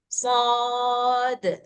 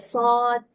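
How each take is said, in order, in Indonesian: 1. Konsonan akhir dilepas dengan pantulan yang kuat. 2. Konsonan akhir ditelan tanpa pantulan sama sekali. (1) "Ininya harus besar ini" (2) "nggak boleh ditelan sendiri"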